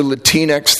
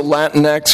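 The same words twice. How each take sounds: First: Put-on Latinx said as la-TEEN-ex; Spanish-leaning Latinx. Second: Latinx said as LAT-nex; anglicised Latinx. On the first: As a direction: say Latinx with a long 'ee', la-TEEN-ex. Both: Shown as a demonstration. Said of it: "Latinx or Latinx".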